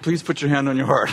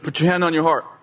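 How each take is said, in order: First: It is said in a soft, gentle tone. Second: It is said in a stern, commanding tone.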